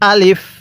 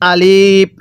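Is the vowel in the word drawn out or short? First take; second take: short; drawn out. First: The vowel is kept short, not stretched. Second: The vowel is stretched out long. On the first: The speaker calls it right. "আলিফের মধ্যে কোনো প্রকার টান হবে না" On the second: The speaker calls it wrong. "অনেকেই আলিফ এরকমভাবে পড়ি, এরকমভাবে পড়লে পড়াটা সহি শুদ্ধ হবে না"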